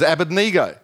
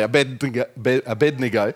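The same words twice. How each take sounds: First: The name is said in a plain, unblocked voice. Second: The name is said with a blocked, nasal voice. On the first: The speaker calls it right. "an alternative way of pronouncing it was" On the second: The speaker calls it wrong. "trying to block my nose and say Abednego"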